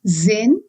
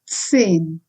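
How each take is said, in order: First: The word begins with a buzzing z sound. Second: The word begins with a ts sound. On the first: The speaker calls it wrong. "It's not zen" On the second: The speaker calls it right. "Z is pronounced as ts"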